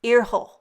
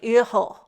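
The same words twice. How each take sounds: First: It is said with a German pronunciation. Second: It is said with a German pronunciation.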